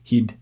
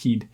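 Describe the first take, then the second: First: The vowel is said very short. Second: The vowel is said very short.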